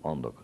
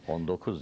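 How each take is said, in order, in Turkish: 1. Vurgu birinci kelimeye düşer. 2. Vurgu ikinci kelimeye düşer. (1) "ikinci bölümde vurgu yok" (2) "19 değil"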